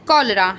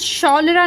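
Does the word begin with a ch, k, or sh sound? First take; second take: k; sh. First: The word begins with a k sound. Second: The word begins with a sh sound. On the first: The speaker calls it right. "यहाँ पर क sound pronounce हो रहा है" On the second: The speaker calls it wrong. "या फिर शौलरा नहीं बोल रहे हैं"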